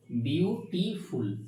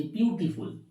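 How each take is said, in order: First: beautiful said slowly in three separate syllables; broken into syllables. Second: Said in the usual way. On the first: Shown as a demonstration. Teacher showing a class the syllables of beautiful, slowly broken apart. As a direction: break beautiful into three drawn-out beats. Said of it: "এখান থেকে ভেঙে হয়ে যাচ্ছে". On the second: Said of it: "একবারে উচ্চারণ করা হয়".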